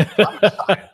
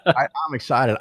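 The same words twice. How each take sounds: First: High, laughing burst of glee; thrilled at the thought of a fight, laughing it out; excited laugh. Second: Settled, chuckling restatement; same glee but calmer, through a laugh; laughing repeat. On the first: Host gleefully offering to confront the broker, laughing excitedly. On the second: Host repeating his eagerness to the listener, chuckling. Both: Real, not acted.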